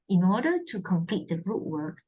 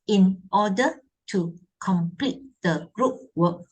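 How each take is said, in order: First: The words run together in one smooth flow. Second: Each word is said separately with breaks between. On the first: The speaker calls it right. "it's a flow. There's a flow" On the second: The speaker calls it wrong. "Instead of saying"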